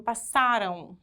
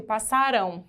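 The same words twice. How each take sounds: First: "Passaram" stressed on SA, weak final U sound; past-tense stress. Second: "passarão" stressed on the final RÃO; future-tense stress. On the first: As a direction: punch the SA in "Passaram", let the ending go weak. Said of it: "se for no passado é com M no final, fica fraquinho". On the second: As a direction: land the weight on the last syllable of "passarão". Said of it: "Se for no futuro". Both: Shown as a demonstration.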